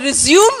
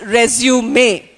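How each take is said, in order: First: The final E is silent. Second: The final E is sounded. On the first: It is used as a verb meaning to continue. "Resume is correct because I am using it as a verb" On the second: It is used as a noun meaning a job document. "When I use it as a noun, it becomes resume"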